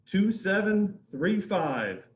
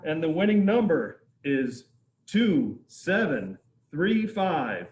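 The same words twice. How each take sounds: First: Slow, loud, digit by digit; raffle caller. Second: Loud, slow announcement of the number; raffle caller. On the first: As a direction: spell out each digit slowly and clearly. Repeats the number slower. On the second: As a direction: call out the winning number. Reading out the raffle winner. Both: Real, not acted.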